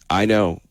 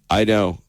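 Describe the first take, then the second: Both takes have the same delivery.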